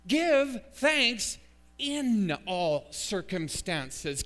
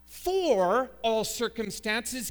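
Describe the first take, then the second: First: Slow, loud reading with "in" drawn out; emphatic, very slow "Give thanks in", preacher driving it home; stress on IN. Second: Loud, long "for", slow phrase; stress on FOR. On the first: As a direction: lean hard on "in", word by word. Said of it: "What's the preposition in our text?". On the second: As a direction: stretch "for" out forcefully to show the wrong word. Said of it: "It is not, definitively not". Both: Shown as a demonstration.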